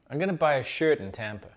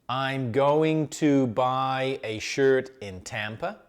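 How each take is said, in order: First: Going to is squashed quickly into gonna. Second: Going to is said carefully and in full.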